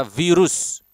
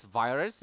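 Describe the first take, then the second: First: Virus said the Indonesian way, vee-roos; short clear I and U in virus; Indonesian pronunciation. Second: Virus said the English way, vai-rus; English vai-rus with a long I; English pronunciation. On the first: Teacher contrasting languages, Indonesian virus second. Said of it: "in Bahasa Indonesia virus". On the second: Teacher contrasting languages, English virus first. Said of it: "in English virus". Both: Shown as a demonstration.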